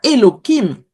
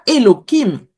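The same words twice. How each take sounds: First: The middle consonant is a k sound. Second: The middle consonant is a k sound.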